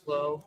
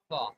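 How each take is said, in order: First: The name rhymes with dough. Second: The name rhymes with claw. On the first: "Like dough, clo" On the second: "pronounce it like a claw"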